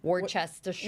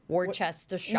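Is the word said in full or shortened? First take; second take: full; full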